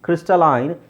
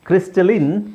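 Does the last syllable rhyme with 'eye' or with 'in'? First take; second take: eye; in. First: The last syllable has the vowel of 'eye'. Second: The last syllable has the short vowel of 'in'. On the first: "ಕ್ರಿಸ್ಟಲೈನ್ British pronunciation" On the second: "ಇದು ಕ್ರಿಸ್ಟಲಿನ್ American pronunciation"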